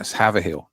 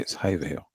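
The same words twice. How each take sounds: First: The name is said the way outsiders say it. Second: The name is said the way locals say it. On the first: The speaker calls it wrong. "They go like" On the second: The speaker calls it right.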